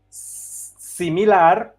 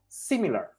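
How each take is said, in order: First: The word is pronounced the Spanish way. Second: The word is pronounced the English way. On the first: "In Spanish we say similar" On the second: "in English we say similar"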